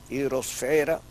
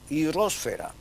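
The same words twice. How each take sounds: First: The stress falls on the second-to-last syllable. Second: The stress falls on the third-to-last syllable. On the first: This is the usage in Spain. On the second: This is the usage in the Americas. "el uso es esdrújulo"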